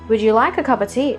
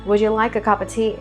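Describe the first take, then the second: First: The pitch stays mostly level throughout. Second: The pitch stays mostly level throughout.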